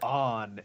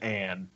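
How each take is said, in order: First: The name's vowel sounds like 'on'. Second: The name's vowel sounds like 'an'. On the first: This is how the Japanese version says the name. The speaker calls it wrong. "On instead of Anne" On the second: This is how the English version says the name. The speaker calls it right. "instead of Anne"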